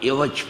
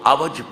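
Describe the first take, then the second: First: The first vowel is an 'i' sound. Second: The first vowel is an 'a' sound. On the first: The crookedness is in meaning. "कसरे के साथ बोलते हैं" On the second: The crookedness is in something visible. "फतहे के साथ"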